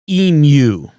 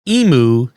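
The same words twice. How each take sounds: First: The word ends with a 'myoo' sound. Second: The word ends with a plain 'moo' sound. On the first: The speaker calls it right. "but emu. ... Mew" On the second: The speaker calls it wrong. "Contrary to what our American friends think, E M U is not pronounced emu"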